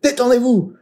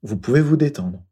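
First: It is said in a tense, abrupt voice. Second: It is said in a calm, soothing voice.

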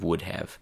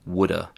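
First: The phrase is said in its full form. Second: The phrase is squeezed into reduced woulda. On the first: "instead of" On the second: "chewing gum pronunciations"

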